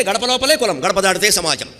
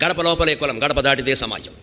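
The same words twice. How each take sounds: First: లోపలే and దాటితే stressed, higher and bold; emphatic maxim. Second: Said in the usual way. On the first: Shown as a demonstration. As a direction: proclaim the maxim, hitting లోపలే. (లోపలే మీద ఒత్తి, గట్టిగా ప్రకటించడం) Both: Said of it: "ఐదు ఎవరు ఉండడా?".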